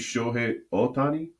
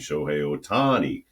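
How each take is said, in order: First: All syllables of Otani are evenly flat. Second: One syllable of Otani is stressed. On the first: The speaker calls it right. "Japanese pronunciation is very flat" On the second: The speaker calls it wrong. "saying Shohei Otani's name incorrectly"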